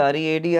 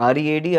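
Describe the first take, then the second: Both takes have the same delivery.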